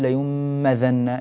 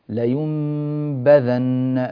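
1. تندمج الباء وتبدو كأنها ميم. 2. تتحول النون إلى ميم، ثم باء واضحة. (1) "لا تقول لينبذن، يعني هكذا شعرت أن الباء صارت ميما" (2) "ميز الميم التي انقلبت عن النون من حرف الباء"

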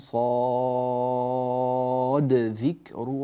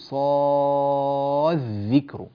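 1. ينطق صوت d بوضوح قبل dh. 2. يُدغم صوت d في صوت dh الذي بعده. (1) "تأتي بالدال مظهرة" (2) "لا تقول صاد ذكر، هذا غير صحيح"

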